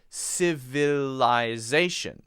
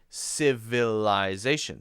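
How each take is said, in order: First: The middle vowels are pronounced fully and clearly. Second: The middle vowels are pronounced fully and clearly.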